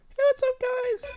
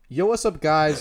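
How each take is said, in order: First: It is said in a higher voice. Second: It is said in a normal voice.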